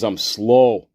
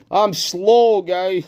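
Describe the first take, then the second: First: Said in the usual way. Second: High put-on voice; silly self-mockery. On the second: Mocking himself to viewers for being slow, silly high voice. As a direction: echo it in a comic high pitch.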